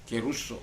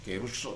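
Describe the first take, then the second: First: The second vowel sounds like 'oo'. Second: The same.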